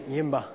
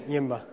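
Both takes have the same delivery.

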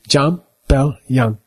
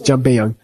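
First: It is said slowly, syllable by syllable. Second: It is said fast, run together.

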